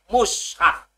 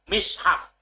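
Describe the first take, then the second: First: The first vowel is u. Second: The first vowel is i. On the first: "dhamah mime" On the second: "kasroe mim"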